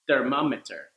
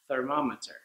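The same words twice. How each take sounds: First: It begins with a D sound. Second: It begins with a TH sound. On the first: The speaker calls it wrong. "the D sound that you were using" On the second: The speaker calls it right. "change it to"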